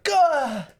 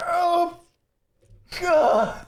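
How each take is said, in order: First: High, short mock groan of pain; cartoonish cry of hurt; Ash. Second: High, strained groan of pain; Ash. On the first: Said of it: "And in the original movie". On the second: Acted. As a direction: cry out as if badly hurt, hammed-up. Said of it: "flat out is just in pain".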